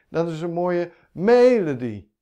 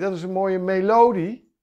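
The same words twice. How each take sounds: First: The stress is on the first syllable. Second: The stress is on the second syllable. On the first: "Als de klemtoon op de eerste zou zitten" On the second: "Niemand zegt melodie"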